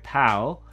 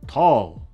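First: The t is plain with a light, flat vowel. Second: The t is heavy with a deep, open vowel. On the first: The speaker calls it wrong. "We don't say tal" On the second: The speaker calls it right. "It's more open"

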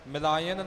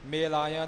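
First: The first vowel is an i sound. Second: The first vowel is an e sound. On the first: The speaker calls it wrong. "ਮਿਲਾਇਨ ਨਹੀਂ ਹੋਵੇਗਾ" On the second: The speaker calls it right. "ਮੇਲਾਇਨ ਲਾਮ ਲਗਾ ਕੇ ਹੀ ਪਾਠ ਹੋਵੇਗਾ"

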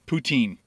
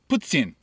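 First: It is said like poo-teen, Ontario style. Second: It is said the Quebec French way.

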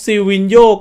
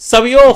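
First: The name begins with a 'si' sound. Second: The name begins with a 'sa' sound. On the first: The speaker calls it wrong. "ไม่ได้อ่านว่าซิวินโยขออภัยนะครับ" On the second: The speaker calls it right. "อ่านว่าอะไรเนี่ยซาวิโอนี่"

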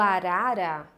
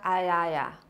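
First: The word has a tapped r sound. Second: The r is replaced by a y sound. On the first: The speaker calls it right. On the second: The speaker calls it wrong.

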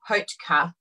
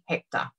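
First: The name is pronounced like Hotka. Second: The name is pronounced like Hector. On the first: The speaker calls it wrong. "We were saying Hotka" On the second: The speaker calls it right. "but it's actually Hector. So that's how she pronounces it"

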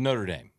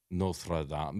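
First: The name is said with a Southern American accent. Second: The name is said with a French pronunciation. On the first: "I say it in the most southern accent probably" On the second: "I've never been able to say it the French way"

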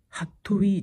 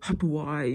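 First: The name ends with an 'ee' sound. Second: The name ends with an 'eye' sound. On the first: "ハットウィーじゃなくて" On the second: "ハトワイみたいな、そういう発音で言ってたんですよね"

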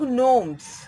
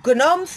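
First: The word begins with an n sound. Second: The word begins with a g sound. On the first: The speaker calls it right. "इसे बोलोगे तुम लोग नोम्स" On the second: The speaker calls it wrong. "गनोम्स नहीं बोलोगे तुम लोग"

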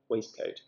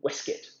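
First: The word is pronounced the way it is spelled. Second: The word is pronounced in an older reduced form. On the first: This is the newer, fashionable way of saying it. "you may pronounce it in that way" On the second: This is the old-fashioned, upper-class way of saying it. "the more gentlemanly pronunciation of waistcoat"

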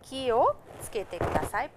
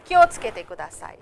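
First: It is slower, with 'ki' and 'o' kept separate. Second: It is fast, with 'ki o' fused into 'kyo'. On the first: "It means ki o tsukete kudasai" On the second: "it's said very fast"

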